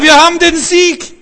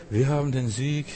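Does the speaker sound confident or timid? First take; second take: confident; timid. First: It is said in a strong, triumphant voice. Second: It is said in a weak, feeble voice. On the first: The speaker truly believes in the victory. The speaker calls it right. "Aber wenn du sagst, Halleluja" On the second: The speaker does not really believe in the victory. The speaker calls it wrong. "Schwächlinge reden so"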